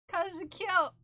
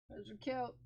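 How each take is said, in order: First: High, loud gushing praise; excited pet praise. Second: Soft cooing pet praise; soft pet talk. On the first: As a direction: gush it out excitedly. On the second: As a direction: coo it gently. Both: Real, not acted. Praising dog, repeated louder.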